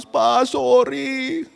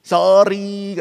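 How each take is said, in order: First: High, slow, drawn-out mock weepy child; retold tearful plea, pitched up; imitated tearful apology. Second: Sorry said through a grin, louder; light, insincere smiling apology; imitated smiling apology. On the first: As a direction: plead like a crying child saying sorry. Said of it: "dia nangis". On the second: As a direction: act out a child's too-easy, grinning sorry. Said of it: "sorry itu sambil senyum-senyum".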